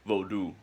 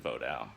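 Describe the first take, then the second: First: The word ends with an 'oo' vowel. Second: The word ends with an 'ow' vowel. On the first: This is the usual pronunciation. "it's pronounced Vodou" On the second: This is a personal pronunciation. "but I pronounce it Vodao"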